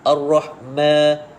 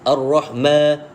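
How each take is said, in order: The two takes are said the same way.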